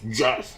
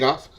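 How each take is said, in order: First: The name starts with a J sound. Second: The name starts with a hard G sound. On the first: "It's with a J" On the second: "I did the first couple times I talked to him"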